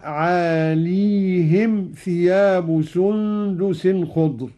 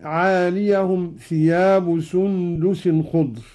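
First: Slow "عاليهم" with a still ya; with "عاليهم" sukun. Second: Ya of "عاليهم" with fatha; slow recitation of "عاليهم"; "عاليهم" read with a voweled ya. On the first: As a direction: say "عاليهم" with ya unvoweled. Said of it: "قرأ قالون بإسكان الياء هكذا". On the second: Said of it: "قوله تعالى". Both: Shown as a demonstration.

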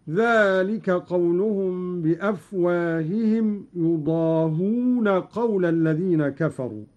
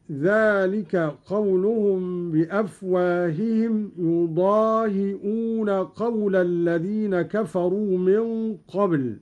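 First: يضاهون said yudahuna with u and no hamza. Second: Said in the usual way. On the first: Shown as a demonstration. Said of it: "هكذا". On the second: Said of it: "قرأ قالون".

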